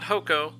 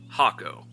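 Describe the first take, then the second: First: The first vowel sounds like 'oh'. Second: The first vowel sounds like 'ah'. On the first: The speaker calls it wrong. "not Hoko" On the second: The speaker calls it right. "I said it right"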